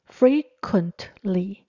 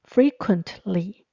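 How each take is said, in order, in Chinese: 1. t 音读得很清楚。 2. t 音读得很清楚。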